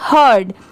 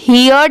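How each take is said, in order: First: The vowel sounds like the word 'her'. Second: The vowel sounds like the word 'here'. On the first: The speaker calls it right. "इसकी sound क्या आएगी?" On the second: The speaker calls it wrong. "यहाँ पर इसे हियर्ड नहीं पढ़ेंगे"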